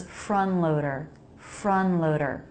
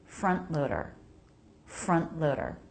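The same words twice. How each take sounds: First: "front loader" as frun-loader, N running straight into L; no T at all. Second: "Front loader" with a brief unreleased T before the L; stop T. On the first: Teacher showing the mistake, "front loader" without any T. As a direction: drop the T in "front loader", no stop of air. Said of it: "where there's no T at all". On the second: Teacher modelling the correct form, "Front loader" with a stopped T. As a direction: cut the air at the T in "Front loader", no puff. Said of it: "The stop is needed". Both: Shown as a demonstration.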